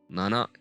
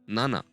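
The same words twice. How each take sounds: First: The pitch stays level without lowering. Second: The pitch lowers on the second syllable. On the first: The speaker calls it wrong. "I was wrong" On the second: The speaker calls it right. "Lowering down the voice"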